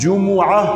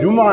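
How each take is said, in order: First: The m is followed by a u vowel. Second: The m has no vowel after it. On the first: The speaker calls it right. "बल्कि मीम की हरकत के साथ है, ऐसे मीम पर भी ज़म्मा है" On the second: The speaker calls it wrong. "ये लफ्ज़ जुमा नहीं है, मीम के सुकून के साथ नहीं है"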